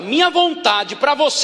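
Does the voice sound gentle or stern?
stern. It is said in a harsh, stern tone. The will is imposed severely. The speaker calls it wrong. "Não com esse tom de voz"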